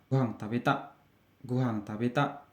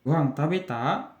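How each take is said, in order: First: "tabeta" dropped, softer; falling answer tune. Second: "tabeta" lifted at the end; casual question, end of "tabeta" going up; rising question. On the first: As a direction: let "tabeta" settle down as an answer. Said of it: "intonasinya turun". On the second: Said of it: "untuk bertanya itu, intonasinya naik". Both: Shown as a demonstration.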